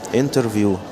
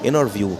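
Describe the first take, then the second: First: The t after the n is clearly pronounced. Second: The t after the n is dropped entirely. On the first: "هتقول كلمة انترفيو" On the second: "تعال شوف الامريكان بينطقوها ازاي"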